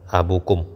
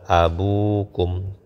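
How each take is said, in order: First: The vowel after the b is short. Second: The vowel after the b is long. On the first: The speaker calls it wrong. "ini keliru ya" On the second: The speaker calls it right. "Yang benar adalah abukum ditambah dengan wawu"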